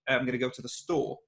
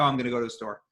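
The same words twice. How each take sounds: First: British accent, with the emphasis near the end. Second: American accent, with the emphasis near the start. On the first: "if I'm moving to a British accent and say, ... then it's moving towards the end" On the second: "if I'm speaking an American accent and say, ... the emphasis was in the beginning"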